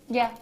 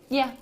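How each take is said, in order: No difference in how they are said.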